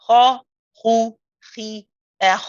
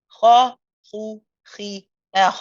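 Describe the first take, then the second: Both takes have the same delivery.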